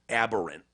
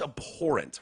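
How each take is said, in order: First: The word is said as aberrant. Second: The word is said as abhorrent. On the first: The speaker calls it wrong. "Not even abhorrent" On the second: The speaker calls it right. "It's abhorrent, right?"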